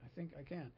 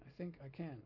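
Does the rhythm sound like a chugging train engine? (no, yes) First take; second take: yes; yes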